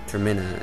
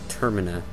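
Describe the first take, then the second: First: The stress is not on the first syllable. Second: The stress is on the first syllable. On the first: The speaker calls it wrong. "I don't agree with um, Zelda Universe on their on their accenting" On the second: The speaker calls it right. "accented on the first syllable"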